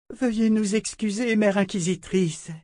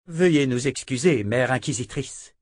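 First: Grace repeating the apology. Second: Lightly voiced deferential sisters; bow the words out politely; sisters apologizing. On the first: Sister Grace repeats her apology to Callan, high and humble. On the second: The sisters apologize to Callan, lightly voiced and deferential. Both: A narrator's reading. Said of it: "répéta sœur Grace".

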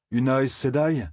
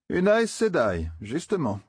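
First: A touch of bitter scorn on Aes Sedai, falling. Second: Aes Sedai drawn out slowly, high and uneasy; shivering repeat. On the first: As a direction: Aes Sedai said dry and bitter, voice dropping at the end. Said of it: "d'un ton amer". (une pointe d'amertume sur «Aes Sedai») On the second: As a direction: repeat it slowly as if chilled by fear. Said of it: "répéta Matt en frissonnant". (répété lentement, en frissonnant) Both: A narrator's reading.

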